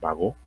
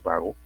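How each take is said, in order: First: The stress is on the last syllable. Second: The stress is on the first syllable. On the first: The speaker calls it right. "Lleva tilde, no ha salido la tilde aquí, pero es Bagot" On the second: The speaker calls it wrong. "no es vago"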